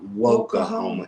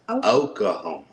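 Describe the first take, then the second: First: The word starts with an added W sound. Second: The word starts with a plain vowel sound. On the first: The speaker calls it wrong. "It is not Woklahoma" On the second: The speaker calls it right. "it's Oklahoma"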